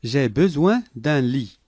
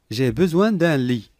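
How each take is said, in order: Both takes have the same delivery.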